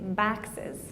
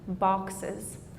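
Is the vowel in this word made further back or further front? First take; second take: front; back. First: The vowel is made higher and further front. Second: The vowel is made lower and further back. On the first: "in the Midwest, someone might say baxes" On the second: "putting the tongue lower and further back in the mouth"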